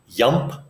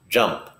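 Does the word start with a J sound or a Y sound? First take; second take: Y; J. First: The word begins with a Y sound. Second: The word begins with a J sound. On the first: The speaker calls it wrong. "It's not yump" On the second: The speaker calls it right. "it's jump"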